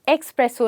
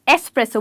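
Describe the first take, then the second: First: It starts with an x sound, like expresso. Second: It starts with a plain s sound, no k. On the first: The speaker calls it wrong. "इसको हम एक्सप्रेसो नहीं" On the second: The speaker calls it right. "एस्प्रेसो बोलते हैं"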